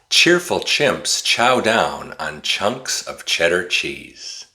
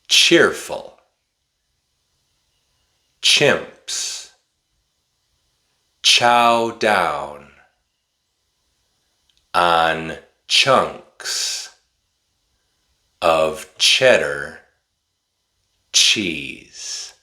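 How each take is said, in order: First: It is spoken very fast without pauses. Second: It is spoken slowly with pauses between words.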